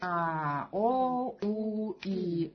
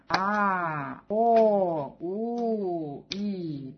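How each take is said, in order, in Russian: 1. Гласные произносятся быстро. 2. Гласные произносятся медленно. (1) "Потом прибавляем скорость" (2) "Начинать нужно делать медленно"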